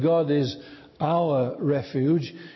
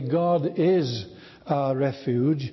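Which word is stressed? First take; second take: our; is. First: The stress falls on the word our. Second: The stress falls on the word is. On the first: "move again the emphasis to the third word" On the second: "emphasizing the second"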